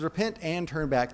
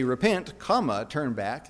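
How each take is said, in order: First: "Repent and turn back" flowing as a single phrase; one joined phrase with no break after "Repent"; read as one joined command. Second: "Repent," then a pause, then "comma, turn back" slower, each part on its own; "Repent" rising and set apart, then a deliberate "comma, turn back"; read as two separate commands. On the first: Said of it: "It says". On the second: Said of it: "It doesn't say". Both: Shown as a demonstration.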